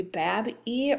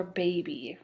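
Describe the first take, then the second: First: BAB-E as bab, ee, with a short A; BAB-E with the A of cab; short-vowel misreading. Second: Said in the usual way. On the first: Shown as a demonstration. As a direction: try reading it bab-ee, closed first syllable. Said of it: "could be bab-e or baby". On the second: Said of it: "So we know it's baby".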